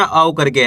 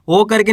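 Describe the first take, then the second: First: "औ" as a gliding au; correct au sound. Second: "ओ" as a steady long o; wrong o sound. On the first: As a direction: say "औ" opening on a, closing on u. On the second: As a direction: say "ओ" rounded, without any glide. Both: Shown as a demonstration. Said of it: "ओ करके नहीं पढ़ना".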